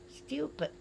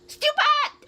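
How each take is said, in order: First: It sounds calm, just stating an opinion. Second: It sounds very angry.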